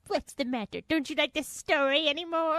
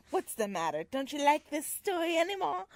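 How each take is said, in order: First: Louder, higher mock Henry; imitating Henry voice. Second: Lightly voiced automaton Henry; a hint of a wounded showman. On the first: Mimicking her cohost's Henry, louder and higher. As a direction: ham up the hurt showman. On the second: Reading Henry's line to Belle, lightly voiced. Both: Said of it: "That's a great Henry voice".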